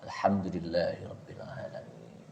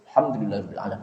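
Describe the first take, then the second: First: The phrase is recited at an unhurried, normal pace. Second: The phrase is recited quickly and hurriedly. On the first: The speaker calls it right. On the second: The speaker calls it wrong. "bacaannya cepat pada saat sir"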